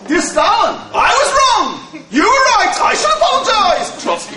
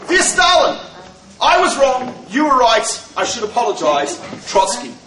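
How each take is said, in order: First: It is read with strong, mocking emotion. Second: It is read as a plain, flat statement.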